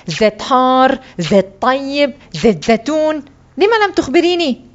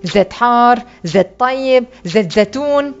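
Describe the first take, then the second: First: Indignant list climbing to high protest; angry. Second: Mildly impatient listing question. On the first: Boy blames his mother for not explaining, mildly angry. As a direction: throw the choices back crossly. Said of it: "فقلت بغضب". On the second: Frowning seller asks the boy which oil, mildly impatient. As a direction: reel off the choices with restrained impatience. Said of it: "سألني مقطبا نافذ الصبر". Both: A narrator's reading.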